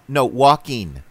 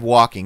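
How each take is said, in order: First: The ending is said as a short 'in'. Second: The ending is said as a full 'ing'. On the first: The speaker calls it wrong. "drop their ings and make it in" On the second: The speaker calls it right. "instead of"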